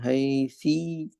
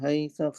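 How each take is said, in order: First: The word ends in an i vowel. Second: The word ends in an a vowel. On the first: "कसरे के साथ" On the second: "फतहे के साथ"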